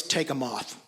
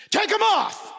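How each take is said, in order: First: Said in the usual way. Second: Much higher, much louder yelled order; furious shout. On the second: Retold or imitated. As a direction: bark it as a furious command. Dad repeats order, yelling.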